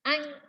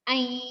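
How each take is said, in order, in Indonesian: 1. Dengung hidung berhenti karena hidungnya tersumbat. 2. Dengung hidung ditahan lewat hidung. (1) "Ustazah nggak bisa baca ya" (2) "Terus harus nyirung ke hidung"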